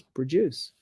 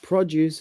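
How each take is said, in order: First: PRODUCE stressed on DUCE, as a verb; light PRO, heavy DUCE in PRODUCE; second-syllable stress. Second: PRODUCE stressed on PRO, as a noun; weight on PRO in PRODUCE; first-syllable stress. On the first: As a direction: say PRODUCE slowly as pruh-DUCE. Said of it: "stress the second syllable". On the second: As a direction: say PRODUCE slowly as PRAH-duce. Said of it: "stress is on the first syllable". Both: Shown as a demonstration.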